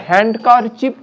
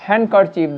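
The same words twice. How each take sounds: First: "হ্যান্ডকারচিপ" with the d sounded; "হ্যান্ডকারচিপ" said with an audible d; wrong pronunciation. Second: "হ্যান্ডকারচিপ" with the d dropped; silent d. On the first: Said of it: "হ্যান্ডকারচিপ বলবো না". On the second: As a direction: say "হ্যান্ডকারচিপ" as "han-kar-chip". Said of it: "ডিটা silent আছে তাই". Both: Shown as a demonstration.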